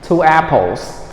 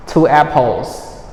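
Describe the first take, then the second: No difference in how they are said.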